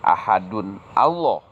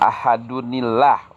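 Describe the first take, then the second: First: The two words are kept apart without linking. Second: The words are joined with an added 'ni' sound. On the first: The speaker calls it wrong. "bukan ahadun Allah ... salah" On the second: The speaker calls it right. "Jadi ahadunillah"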